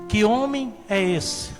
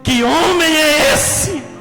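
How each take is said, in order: First: It is said as a questioning inquiry. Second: It is said as an admiring exclamation.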